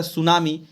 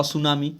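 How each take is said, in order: First: सुनामी with silent t, "su-naa-mi"; correct tsunami pronunciation. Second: सुनामी with t sounded, "ta-su-naa-mi"; spelling-based misreading. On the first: Teacher showing the English way, सुनामी without the t. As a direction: start सुनामी straight on s. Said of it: "अंग्रेजी के हिसाब से". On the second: Teacher imitating uninformed readers, misread सुनामी with sounded t. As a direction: put a "ta" before सुनामी. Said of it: "हम लोग नहीं जानते तो पढ़े". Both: Shown as a demonstration.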